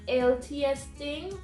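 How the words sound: It is said in a Jamaican accent.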